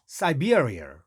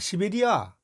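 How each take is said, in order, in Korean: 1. 첫 음절은 'sai'로 발음합니다. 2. 첫 음절은 'si'로 발음합니다. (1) "이렇게 발음해야" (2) "시베리아 하면 알아듣는 사람 한 명도 없어요"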